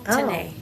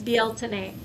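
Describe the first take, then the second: First: The word is said with an English pronunciation. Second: The word is said with an Irish pronunciation. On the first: "just an English pronunciation of the Irish word" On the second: "in Gaelic it's"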